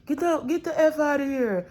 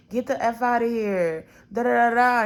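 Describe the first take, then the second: First: Much higher, strained near-yell with a crying edge; screaming curse. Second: A sharp first take of the curse, only a bit raised; mock cursing out. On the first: Retold or imitated. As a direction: scream it at the boy a second time, harder. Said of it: "He's like". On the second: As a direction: tell him off, half-performed. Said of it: "curses the boy out".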